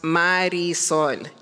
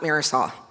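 First: The name is said with Spanish sounds. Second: The name is said with English sounds. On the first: The speaker calls it right. "My name is pronounced Marisol" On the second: The speaker calls it wrong. "It is not Marisol. Marisol is like nails on a chalkboard of my soul"

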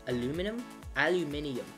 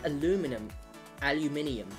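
Both takes have the same delivery.

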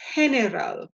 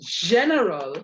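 First: The G sounds like an H. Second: The G does not sound like an H. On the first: The speaker calls it right. "that G is going to sound like an H" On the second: The speaker calls it wrong. "it's not going to be general"

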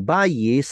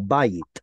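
First: The word ends with an s sound. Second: The word ends with a t sound. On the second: "which we call bayit"

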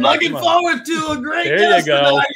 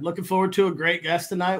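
First: It is said with lively, enthusiastic energy. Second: It is said in a calm, ordinary tone.

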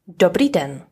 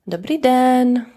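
First: It is said with a native Czech accent. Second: It is said with a foreign, non-Czech accent. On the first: The speaker calls it right. "it should be" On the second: The speaker calls it wrong. "you start to sound like a non-Czech"

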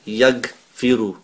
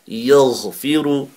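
First: It uses a hard English g. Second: It uses a throaty gh sound. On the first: The speaker calls it wrong. "So you won't be saying yaghfiru" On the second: The speaker calls it right. "It's a gh from the top of the throat"

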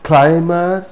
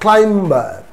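First: The B is silent after the M. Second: A B sound is heard after the M. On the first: The speaker calls it right. "we will not pronounce B" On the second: The speaker calls it wrong. "not climber"

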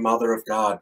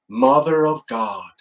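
First: It is said softly and reverently, like prayer. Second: It is blurted out like a swear word. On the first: It addresses the Virgin Mary in prayer. The speaker calls it right. "in a reverential way" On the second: It expresses shock or annoyance. The speaker calls it wrong. "using it like a four-letter word"

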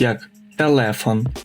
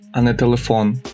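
First: The stress is on the middle syllable. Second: The stress is on the last syllable. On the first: This is the Polish way of saying it. The speaker calls it right. "вам була дивна вимова таких слів, як телефон" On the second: This is the familiar Ukrainian way of saying it. The speaker calls it wrong.

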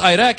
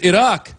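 First: The name is said with an Americanized pronunciation. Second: The name is said with a native-style pronunciation. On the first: The speaker calls it wrong. "He never pronounced the country right. He called it Iraq" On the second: The speaker calls it right. "at least pronounce it right"

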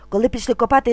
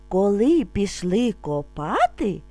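First: It is spoken very fast. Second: It is spoken calmly and slowly. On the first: "А тепер дуже швидко" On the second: "Спочатку ми будемо вимовляти спокійно, не спіша"

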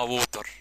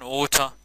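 First: It is said in an Egyptian accent. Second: It is said in a British accent.

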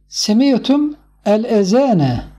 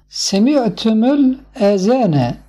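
First: The words are read separately, without linking. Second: The words are linked into one flowing phrase.

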